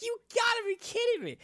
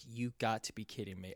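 First: Very high, fast furious cry; shrieking disbelief as the prize falls; mad disbelief. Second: Quiet, quick deflated mutter; defeated. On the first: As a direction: throw it up in outrage at the last-second drop. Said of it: "Like, I was getting so mad". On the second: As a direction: say it like all hope just left. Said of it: "was so heartbroken". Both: Retold or imitated.

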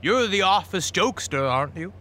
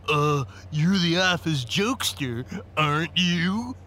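First: Said in the usual way. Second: Slow, stuffy mocking imitation; smug stuffy impression, rising on "you". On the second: A narrator's reading. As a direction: mimic the lawyer in a stuffed-up, drawn-out voice. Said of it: "he said in a stuffy voice".

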